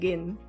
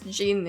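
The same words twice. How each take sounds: First: The word starts with a hard G sound. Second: The word starts with a soft J sound. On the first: This is how it comes naturally to the speaker. "It's just like the G in great" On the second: This is the usual English way to say it. "I assume it's gin in English"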